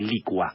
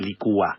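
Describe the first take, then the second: First: The stress is on the first syllable. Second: The stress is on the second syllable. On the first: The speaker calls it right. "es lo correcto, se dice licua" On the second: The speaker calls it wrong. "No se dice licúa"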